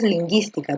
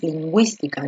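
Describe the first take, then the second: First: "lingüística" with a hard g straight into i; u silent. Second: "lingüística" with gw before the i, softer; u pronounced. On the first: Teacher shows what you don't say, ü silent in "lingüística". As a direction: say "lingüística" as leen-GEES-tee-ka. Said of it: "Tú no dices lingüística". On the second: Teacher shows what you do say, ü sounded in "lingüística". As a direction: say "lingüística" as leen-GWEES-tee-ka. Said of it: "tú dices lingüística". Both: Shown as a demonstration.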